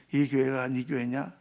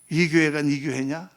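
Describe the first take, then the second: First: Slow, low, searching question; quiet voice of God asking. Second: God pressing again. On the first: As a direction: ask it slowly, probing. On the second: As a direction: press the question home. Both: Retold or imitated. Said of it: "나한테 말씀하시는 거예요".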